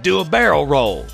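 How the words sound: It is said lively with a Southern accent. The speaker calls it right. "the Nintendo 64 Southern accent"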